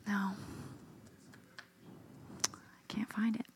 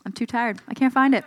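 First: Tired whisper under the breath; whispered, very soft, weary. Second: Said through a laugh; amused, laughing admission. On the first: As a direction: whisper it to yourself, searching. Tired, searching for a word. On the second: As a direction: laugh at yourself as you give up. Laughs at failing to find word. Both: Real, not acted.

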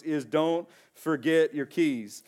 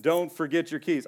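First: "Don't Forget Your Keys" said slowly with stress on "forget"; slow title announcement. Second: Said in the usual way. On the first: Shown as a demonstration. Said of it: "message title, if you're taking notes". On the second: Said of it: "message title".

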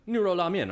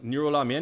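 First: High, loud, emphatic model phrase; noodle guy correcting. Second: Loud, raised, questioning copy; learner echoing back. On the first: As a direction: imitate a local drilling the dish name into a beginner. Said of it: "And he's like". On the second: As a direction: parrot the dish name back for approval. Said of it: "I'm like". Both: Retold or imitated.

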